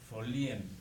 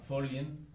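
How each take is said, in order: First: The 'i' is stressed and split from the 'e'. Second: The 'ie' is joined into one syllable. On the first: "tildando la I, rompiendo el diptongo, haciendo un acento de ruptura" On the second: "así manejando el diptongo"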